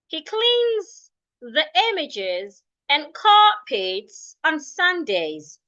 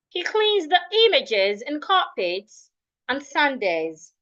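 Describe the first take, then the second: First: The sentence is read at a slower pace. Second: The sentence is read at a faster pace.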